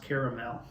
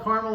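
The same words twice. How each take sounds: First: "caramel" in three syllables, CARE-uh-mel; correct caramel. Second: "caramel" in two syllables, CAR-mul; colloquial caramel. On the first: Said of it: "it is actually pronounced caramel". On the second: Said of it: "but it is actually pronounced caramel". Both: Shown as a demonstration.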